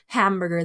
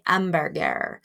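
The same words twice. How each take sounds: First: The H at the start is breathy. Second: The H at the start is silent. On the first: "instead of saying hamburger, huh, huh" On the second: "they say hamburger"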